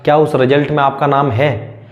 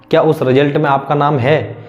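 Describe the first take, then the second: No difference in how they are said.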